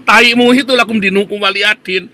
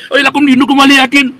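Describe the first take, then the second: First: "lakum dinukum waliyadin" spat back with contempt, less high; scornful retort. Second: High, loud sneering singsong of the phrase; mocking quote. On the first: Real, not acted. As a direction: throw the phrase back at them in disgust. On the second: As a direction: parody their pious line, higher and louder.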